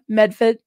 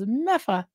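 First: The middle consonants are clearly pronounced in the name. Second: The middle consonants are dropped from the name.

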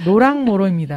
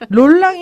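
First: The first syllable ends without an L sound. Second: The first syllable ends with an L sound. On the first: The speaker calls it right. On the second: The speaker calls it wrong. "롤랑이 아니라"

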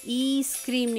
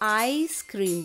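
First: It starts with an 'ee' vowel sound. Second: It starts with an 'eye' vowel sound. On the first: The speaker calls it wrong. "ई स्क्रीम नहीं बोला" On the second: The speaker calls it right. "आइसक्रीम बोला है ना"

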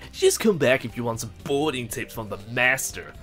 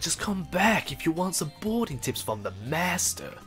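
First: The line is delivered flat, without excitement. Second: The line is delivered with lively excitement. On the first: "But this guy's like" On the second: "he sounded excited about everything"

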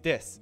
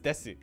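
First: The final u is dropped and silent. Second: The final u is fully voiced. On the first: "So desu is des" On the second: "except when it's desu because people want to pronounce it"

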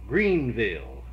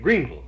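First: It uses the outside, non-local pronunciation. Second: It uses the local Kentucky pronunciation. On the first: "I never heard it said that way, you know, until I got out from there" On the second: "we always said Greenville"

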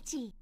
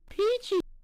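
First: It is said in a lower pitched voice. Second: It is said in a higher pitched voice.

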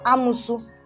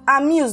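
First: The word ends with an added vowel sound. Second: The word ends on a consonant sound. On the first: The speaker calls it wrong. "not amusu" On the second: The speaker calls it right. "It's amuse. Take corrections"

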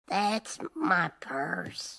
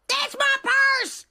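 First: The phrase is said at a normal, unshouted volume. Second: The phrase is shouted loudly. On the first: The speaker calls it wrong. "Don't be afraid to shout it" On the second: The speaker calls it right. "Try it again"

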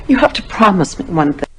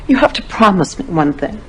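The two takes are said the same way.

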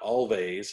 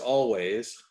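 First: The middle consonant is a v sound. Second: The middle consonant is a w sound. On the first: The speaker calls it wrong. "and not Always" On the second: The speaker calls it right. "it is Always"

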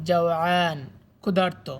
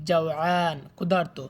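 Both takes have the same delivery.

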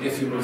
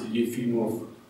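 First: The name starts with a plain 'eh' sound. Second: The name starts with a 'yeh' sound. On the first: The speaker calls it wrong. "not Ephimov states" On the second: The speaker calls it right. "the correct pronunciation is Yefimov"

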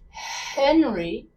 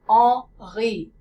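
First: It starts with an American H sound. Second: It starts with no H sound.

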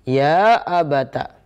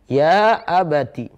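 First: The last word ends with an a vowel. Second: The last word ends with an i vowel. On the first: "bisa fathah" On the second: "Taknya itu bisa kasrah"

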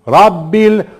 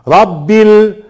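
The two takes are said the same way.

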